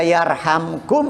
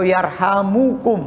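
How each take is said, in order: First: The m runs straight into the k. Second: An u vowel follows the m. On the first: "mimnya sukun" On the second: "atau dhammah"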